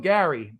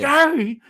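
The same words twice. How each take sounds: First: The name is called in a relaxed, casual way. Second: The name is called in an urgent, alarmed way. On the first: The speaker is just getting someone's attention. "say if I was calling your name" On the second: Something is wrong. "the difference in in the voice and inflection, so I could tell something was wrong"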